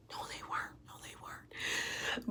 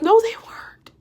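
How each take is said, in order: First: Barely audible, voiceless repeats; whispered denial. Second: High-pitched protest. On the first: Woman contradicts fiancé about broken headphones, whispered. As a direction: whisper it, slowing on the last one. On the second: Woman contradicts fiancé about broken headphones, high protest. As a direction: voice shoots up in denial. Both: Retold or imitated.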